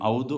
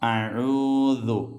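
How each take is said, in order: First: The first vowels glide together as one diphthong. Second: A throaty consonant separates the first two vowels. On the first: The speaker calls it wrong. "ഔദു അല്ല" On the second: The speaker calls it right. "അഊ ഐനാണ്"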